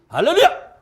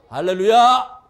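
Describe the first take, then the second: First: The word is said much faster still. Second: The word is said a little faster. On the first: "더 빨라져요" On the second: "그 다음에는 조금 빨라져요"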